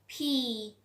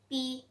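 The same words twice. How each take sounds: First: The P is said with a strong puff of air. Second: The P is said without a puff of air. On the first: "in the British accent and in the correct pronunciation... This will be aspirated" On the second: "In a daily basis, we just use that P"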